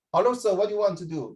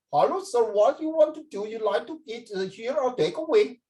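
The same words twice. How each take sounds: First: Lightly voiced Singapore Indian, a bit Singlish; Singapore Indian accent. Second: High, put-on accent from India; Indian accent. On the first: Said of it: "Singapore Indians were". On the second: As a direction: ask like a waiter from India, higher, in an Indian accent. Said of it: "But from India".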